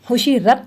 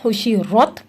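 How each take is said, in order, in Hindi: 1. r को पतला और हल्का बोला जाता है। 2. r को भरा हुआ और भारी बोला जाता है। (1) "नहीं पढ़ेंगे" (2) "बल्कि खुशी रथ पढ़ेंगे"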